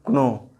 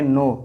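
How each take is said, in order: First: The word starts with a k sound. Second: The word starts with n, no k. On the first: The speaker calls it wrong. "Not क्नो" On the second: The speaker calls it right. "इसको पढ़ेंगे नो"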